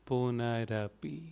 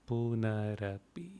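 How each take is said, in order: Both takes have the same delivery.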